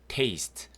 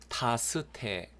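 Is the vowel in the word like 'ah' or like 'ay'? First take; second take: ay; ah. First: The vowel is 'ay' and the final e is silent. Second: The vowel is 'ah' and the final e is sounded. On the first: The speaker calls it right. "테이스트라고 발음합니다" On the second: The speaker calls it wrong. "타스테 그러시는 분 없죠"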